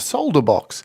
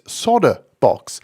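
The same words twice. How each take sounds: First: The L sound in solder is pronounced. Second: The L sound in solder is left out. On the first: This is how it is said outside America. "and for the rest of us, it's solder box" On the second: This is the American way of saying it. "If you're in America, it's solder box. The L is missing"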